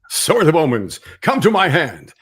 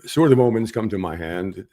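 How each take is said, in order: First: It is said in a more dramatic, commanding way. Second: It is said in a casual, conversational way. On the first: "On screen, that comes off. ... A little more dramatic" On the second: "while I'm sitting here talking to you, I'll say"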